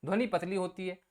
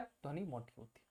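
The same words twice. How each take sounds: First: Said in the usual way. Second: Low and quiet demo of a thick voice. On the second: Shown as a demonstration. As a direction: drop into a low, much softer thick voice.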